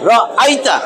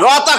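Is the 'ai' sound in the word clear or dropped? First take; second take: clear; dropped. First: The 'ai' vowel is pronounced clearly. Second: The 'ai' vowel is reduced to a plain 'a'. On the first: The speaker calls it right. "আই পরিষ্কার হইতে হবে।" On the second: The speaker calls it wrong. "র আতা কইলে হবে না।"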